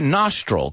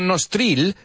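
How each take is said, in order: First: The last vowel sounds like a short 'e'. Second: The last vowel sounds like a clear 'ee'. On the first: The speaker calls it right. "se pronuncia nostril, como si esa I fuera una E" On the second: The speaker calls it wrong. "No nostril"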